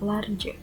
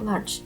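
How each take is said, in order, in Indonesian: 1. Kata tersebut dipecah menjadi dua silabel. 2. Kata tersebut diucapkan sebagai satu silabel. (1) "bukan large" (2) "dilafalkan dengan large"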